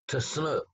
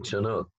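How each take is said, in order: First: The word begins with a 'ts' sound. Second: The word begins with a 'ch' sound. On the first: This is how the tribe says its own name. "They put it like a T-S sound to start with"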